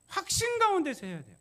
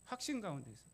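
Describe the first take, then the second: First: Higher and louder, hammering 확신; preaching 확신 loud and high; emphatic proclamation. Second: 확신 가운데서 repeated softer, falling; quiet afterthought on 확신 가운데서; soft echo. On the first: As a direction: proclaim 확신 with full force. Preacher stresses certainty. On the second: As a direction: let 확신 가운데서 fall back quietly. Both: Real, not acted.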